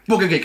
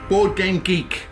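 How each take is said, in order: First: It is said quickly. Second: It is said at a normal pace.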